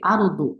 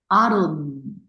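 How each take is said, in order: First: The final consonant is released with a short bounce. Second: The final consonant is held with continuing sound. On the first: The speaker calls it wrong. "이렇게 아르도, 아르도, 깔깔나 주시면 안 돼요" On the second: The speaker calls it right. "계속 소리가 날 것처럼 하셔야 돼요"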